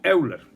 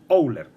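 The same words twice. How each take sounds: First: The name begins with a Spanish-style 'eu' sound. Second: The name begins with an 'oy' sound. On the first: This is how it was commonly said before. The speaker calls it wrong. "lo pronunciaban como Euler" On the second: This is how the name is actually pronounced. The speaker calls it right. "pero ahora me he enterado de que se llama Euler"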